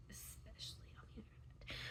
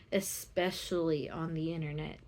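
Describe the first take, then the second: First: Breathy whispered repeat. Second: Said in the usual way. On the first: Real, not acted. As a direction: whisper the phrase under your breath.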